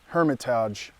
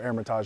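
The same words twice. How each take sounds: First: The word begins with an audible H sound. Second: The word begins with a vowel, no H. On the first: This is how the navigation voice says it. "as G P S says" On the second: This is how people say it who drop the H. "if you don't pronounce the H"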